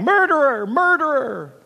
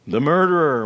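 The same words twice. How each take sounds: First: Crying out. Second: Moaning wind. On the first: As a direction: cry it out high like fleeing birds. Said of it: "they rose on the wind crying". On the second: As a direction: moan it like a frightened wind. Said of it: "moaned the wind". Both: A narrator's reading.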